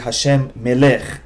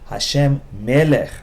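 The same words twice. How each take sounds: First: The stress in melech is on the last syllable. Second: The stress in melech is on the first syllable. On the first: The speaker calls it wrong. "often people say Hashem melech, and that is wrong" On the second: The speaker calls it right. "The proper way to say is Hashem melech"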